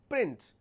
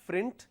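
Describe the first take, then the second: First: The word begins with a p sound. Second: The word begins with an f sound. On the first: The speaker calls it right. "it is print" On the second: The speaker calls it wrong. "It's not frint"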